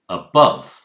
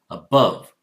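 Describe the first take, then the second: Both takes have the same delivery.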